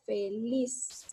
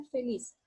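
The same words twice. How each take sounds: First: "feliz" split into syllables, voice raised on "liz"; stress on LIZ. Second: Said in the usual way. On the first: Shown as a demonstration. Teacher showing students where the accent falls, "feliz" stressed on its last syllable. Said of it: "Aquí yo elevo la voz". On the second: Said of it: "divido en sílaba y digo".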